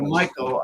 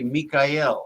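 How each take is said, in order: First: The name is said with an English pronunciation. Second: The name is said with a Hebrew pronunciation. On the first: "instead of Michael" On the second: "I should say it the Hebrew way"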